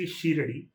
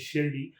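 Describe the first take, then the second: First: The name is said the common Tamil way. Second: The name is said the standard way. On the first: This is how many Tamil speakers say it. The speaker calls it wrong. "they say Shiradi" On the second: This is the original pronunciation of the name. The speaker calls it right. "the actual pronunciation is Shirdi"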